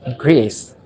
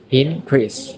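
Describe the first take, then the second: First: The stress is on the second syllable. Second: The stress is on the first syllable. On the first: It is used as a verb. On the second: It is used as a noun.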